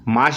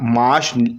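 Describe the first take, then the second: First: The word is said short, without an added vowel. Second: A light extra 'a' vowel sound is added.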